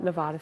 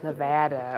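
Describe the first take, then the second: First: Nevada with an "ah" in the middle; mispronounced Nevada. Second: Nevada with a short flat "a" as in "cat"; correct local Nevada. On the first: Streamer showing viewers the wrong way, Nevada mispronounced with "ah". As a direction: say Nevada as "neh-VAH-duh". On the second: Streamer proud of finally learning it, Nevada said the local way. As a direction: say Nevada as "neh-VAD-uh". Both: Shown as a demonstration. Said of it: "got the pronunciation right".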